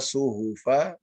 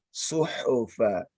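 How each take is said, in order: First: The h sound lacks audible breathy friction. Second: The h sound has audible breathy friction. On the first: The speaker calls it wrong. "Jangan dibaca suhufa. Ini bisa jadi nanti salah makhraj" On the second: The speaker calls it right. "Tapi suhufa"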